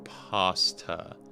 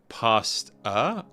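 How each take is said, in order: First: The word is said in an American way. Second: The word is said in a non-American way.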